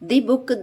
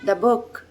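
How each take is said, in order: First: 'The' is said with a long 'thee' vowel. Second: 'The' is said with a short 'thuh' vowel. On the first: The speaker calls it wrong. "ദി book ... എന്ന് വായിക്കില്ല" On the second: The speaker calls it right. "Consonant സൗണ്ടിന്റെ മുമ്പിൽ നമ്മൾ definite ആർട്ടിക്കിളിനെ ധ എന്ന് വായിക്കണം"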